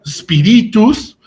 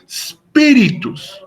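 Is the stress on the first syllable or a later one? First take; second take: later; first. First: The stress falls on a later syllable. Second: The stress falls on the first syllable. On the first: The speaker calls it wrong. "no se pronunciaría como spiritus" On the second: The speaker calls it right. "sino que se pronuncia como spiritus"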